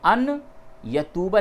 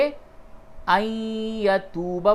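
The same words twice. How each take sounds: First: The n sound is pronounced clearly before the y. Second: The n merges into a nasalized y sound. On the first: The speaker calls it wrong. "अन यतूबा नहीं बोलेंगे" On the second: The speaker calls it right. "बल्कि अन यतूबा बोलेंगे, और वो भी गुन्ने के साथ"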